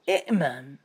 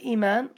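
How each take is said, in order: First: A glottal stop comes right before m. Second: A long i vowel runs straight into m. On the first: This is the underlying original form. "لأن أصلها إئمان" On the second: This is the form actually used. "كلمة إيمان"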